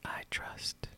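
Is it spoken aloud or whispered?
whispered. It is whispered without voice.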